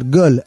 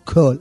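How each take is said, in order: First: The word begins with a voiced g sound. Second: The word begins with a voiceless k sound. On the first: This is the Yemenite pronunciation of the letter. The speaker calls it right. "אתה אומר גול" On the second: This is the common modern pronunciation of the letter. The speaker calls it wrong. "לא קול"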